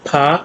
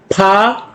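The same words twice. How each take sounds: First: "फा" with a soft opening consonant; slightly soft consonant. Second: "फा" with a strong puff of air, higher; heavier aspiration. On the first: Teacher demonstrates the softer Korean sound, "फा" said softly at the onset. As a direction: start "फा" gently, a light puff. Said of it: "थोड़ा सा soft है". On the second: Teacher demonstrates the aspirated sound, "फा" with heavier breath. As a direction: push breath through the p of "फा". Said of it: "aspirated थोड़ा भारी है". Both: Shown as a demonstration.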